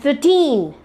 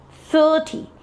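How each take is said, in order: First: Put-on "thirteen" with TEEN drawn out; short "thir", then a long raised "teen" in "thirteen"; long second syllable. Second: "thirty" with THIR held long and high; prolonged first syllable. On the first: Teacher contrasting thirteen with thirty, second syllable prolonged. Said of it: "the second syllable is". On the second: Teacher repeating thirty to students, first syllable prolonged. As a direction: stretch the first syllable of "thirty", keep "ty" short. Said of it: "the first syllable is prolonged". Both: Shown as a demonstration.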